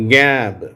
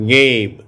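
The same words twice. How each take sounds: First: கேப் said with a short a, like gap. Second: கேப் said with a long ay, like gape. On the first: Teacher repeats the short a drill. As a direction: keep கேப் clipped and flat. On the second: Teacher contrasts the long a for the class. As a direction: draw கேப் out to ay. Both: Shown as a demonstration. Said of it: "நான் வாசிச்சேன், காட்டுறேன்".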